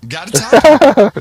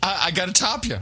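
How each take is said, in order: First: Hammed-up slow bellow, much louder and higher; mock shout. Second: Said in the usual way. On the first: Topping his co-host's story with a hammed-up bellow. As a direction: belt it out like a mock challenge.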